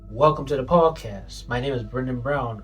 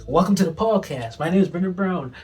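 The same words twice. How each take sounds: First: It is said with moderate, balanced energy. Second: It is said with excessive, overhyped energy.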